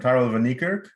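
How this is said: The name is said with an American pronunciation. This is how people in America say the name. "here in America, they call me"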